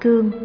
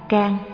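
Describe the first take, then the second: First: The vowel is a gliding ươ sound. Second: The vowel is a plain open a. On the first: This is the Northern reading. "người Bắc đọc là cương" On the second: This is the Southern reading. "người Nam đọc là can"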